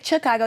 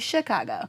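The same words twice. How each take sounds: First: The word begins with a ch sound. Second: The word begins with an sh sound. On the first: The speaker calls it wrong. "you don't say Chicago" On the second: The speaker calls it right. "you say Chicago. So it's like literally like the sh"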